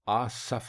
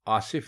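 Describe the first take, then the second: First: The second vowel is 'a'. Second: The second vowel is 'i'. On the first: The speaker calls it right. "बल्कि आसफ" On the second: The speaker calls it wrong. "ये लफ्ज आसिफ नहीं है"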